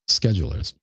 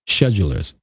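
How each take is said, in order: First: It is said in an American way. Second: It is said in a British way.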